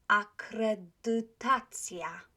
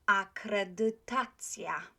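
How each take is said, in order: No difference in how they are said.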